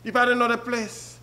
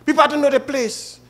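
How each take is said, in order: First: "have" stressed, said softer overall. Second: "people" pushed higher, falling off after; stress on people. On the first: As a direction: quietly press the word "have". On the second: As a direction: lean on the word "people". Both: Shown as a demonstration. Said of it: "I want to say it like this".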